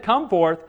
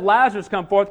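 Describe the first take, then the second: First: Said in the usual way. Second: "Lazarus" louder, leading into "come forth"; stress on Lazarus. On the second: Shown as a demonstration. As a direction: punch the name "Lazarus" before the command. Name stressed against bare command.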